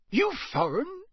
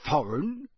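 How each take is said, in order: First: High, rising "You foreign?" in the owner's rustic voice; suspicious countryman. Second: Puzzled echo. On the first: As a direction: probe him with suspicion. Campsite owner voiced by narrator. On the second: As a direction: repeat the word, mildly confused. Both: Acted.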